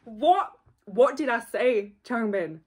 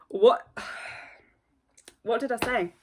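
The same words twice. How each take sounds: First: Said in the usual way. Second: Breathy stunned whisper, a sigh in the middle. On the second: Real, not acted. Whispering in disbelief at the member on screen. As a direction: hush it, as if in disbelief.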